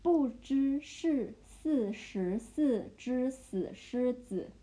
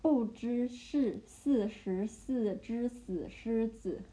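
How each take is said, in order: First: 不知是四十四只死狮子 slowly, syllable by syllable; slow chunked demo. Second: 不知是四十四只死狮子 again slowly with a rise; 不知是四十四只死狮子 spaced out; slow repeat. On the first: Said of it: "Okay, the second". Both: Shown as a demonstration.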